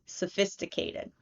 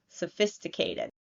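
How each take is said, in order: No difference in how they are said.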